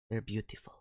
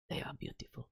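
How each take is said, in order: First: Said in the usual way. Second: Whispered, barely audible praise; reverent whisper. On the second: Pretend. Streamer admires a favorite band, reverent whisper.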